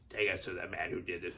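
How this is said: It is said in an Emperor-like voice.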